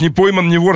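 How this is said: It is said in a condemning tone. Getting away with it is disapproved of. "с осуждением. С таким"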